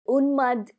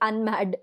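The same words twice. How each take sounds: First: It is said with a Sanskrit pronunciation. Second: It is said with an anglicized English pronunciation. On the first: "Unmad is a Sanskrit uh, term" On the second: "the Unmad is the English-fied version"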